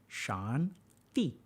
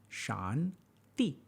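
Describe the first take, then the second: The two takes are said the same way.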